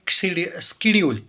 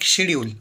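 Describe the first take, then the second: First: The word begins with a 'sk' sound. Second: The word begins with an 'sh' sound. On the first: This is how younger people say it. "जेन जी की भाषा में" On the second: This is how older people say it. "पुरानी वाली भाषा में"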